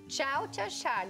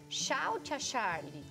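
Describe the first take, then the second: First: Tchau begins with a ch sound. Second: Tchau begins with an s sound. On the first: This is the target form the child should aim for. "ela fosse falar" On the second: This substitution is not expected for a four-year-old. "ela falasse tchau, tia Charlie, aí já tava errado"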